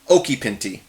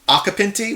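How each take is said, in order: First: The surname is said with Italian pronunciation. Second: The surname is said with American pronunciation. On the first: "in Italian you're actually supposed to say" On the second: "which is how I say my name"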